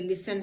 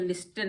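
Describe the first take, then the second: First: The t sound is not pronounced. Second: The t sound is clearly pronounced. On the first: The speaker calls it right. "टी silent है" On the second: The speaker calls it wrong. "लिस्टन नहीं"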